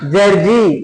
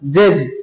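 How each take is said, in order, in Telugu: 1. ఈ పదం చివర అదనంగా 'i' అనే అచ్చు కలిసింది. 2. ఈ పదం 'j' అనే హల్లుతో ముగుస్తుంది.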